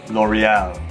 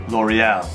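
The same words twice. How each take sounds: No difference in how they are said.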